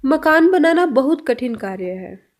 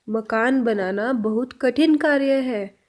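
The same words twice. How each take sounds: First: Said in the usual way. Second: Slow repeat. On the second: Shown as a demonstration. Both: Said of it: "next sentence".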